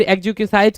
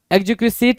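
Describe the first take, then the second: First: Second "एक्जिक्विसाइट" said ending in "-site"; long-i variant. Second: First "एक्जिक्विसाइट" said ending in a short "-sit"; short-i variant. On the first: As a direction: say "एक्जिक्विसाइट" with an "eye" sound in the last syllable. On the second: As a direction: say "एक्जिक्विसाइट" with its last vowel as in "sit". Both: Shown as a demonstration. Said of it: "जो भी pronunciation है ठीक है".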